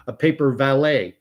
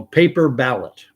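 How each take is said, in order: First: "valet" with a V, as the typo spells it; saying the typo "valet" with a V; typo read aloud. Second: "ballot" with a clear B, set right; corrected "ballot", B sound; correct reading. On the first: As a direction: read "paper valet" just as it's typed, V sound. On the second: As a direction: fix the typo, say "paper ballot" with a B. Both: Shown as a demonstration. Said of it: "Little typo, the V and the B".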